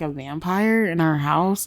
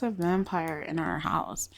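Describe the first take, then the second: First: "A vampire in our house?" as a rising question; questioning echo. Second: Said in the usual way. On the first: Acted. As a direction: echo "vampire in our house" back in doubt, lifting at the end. He questions her report back.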